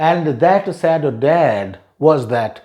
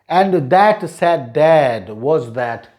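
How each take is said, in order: No difference in how they are said.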